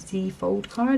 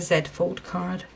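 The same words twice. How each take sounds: First: The letter Z is said as zee. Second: The letter Z is said as zed.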